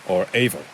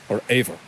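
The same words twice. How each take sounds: No difference in how they are said.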